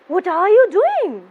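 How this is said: The voice sounds surprised. The speaker did not expect this. "I show that I'm surprised"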